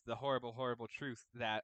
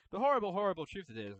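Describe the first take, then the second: First: Said in the usual way. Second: Dramatic, ominous voice on horrible, horrible truth. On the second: Pretend. Dramatic retake of the phrase.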